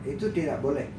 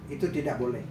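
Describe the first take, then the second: The two takes are said the same way.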